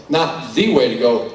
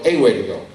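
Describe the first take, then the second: First: "the" pronounced slowly and emphatically; stress on THE. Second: "a" stressed, said lower and firmly. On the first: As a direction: lean on "the" as a correction. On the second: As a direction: put the weight on "a", not "the". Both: Shown as a demonstration.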